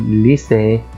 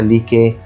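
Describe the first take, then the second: First: The second syllable starts with an s sound. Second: The second syllable starts with a k sound. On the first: The speaker calls it right. "فبقول ليسي" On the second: The speaker calls it wrong. "ولا ما قلتهاش مثلا ليكي"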